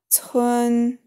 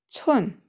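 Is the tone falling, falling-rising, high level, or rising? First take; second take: high level; falling. First: The pitch stays high and level. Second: The pitch falls sharply from high. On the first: "Первый тон" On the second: "четвертый тон"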